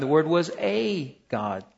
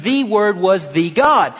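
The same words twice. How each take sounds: First: "a" drawn out and set apart before God; "a" stretched as a separate, stressed word. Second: "the" said as a full, stressed "thee" before God; emphatic "the", weighty and deliberate on "the God". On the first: Acted. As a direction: lean on the word "a", pause, then God. Quoting the misreading with little a. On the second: Shown as a demonstration. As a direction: lean hard on "the" before God. Contrasting reading with definite article.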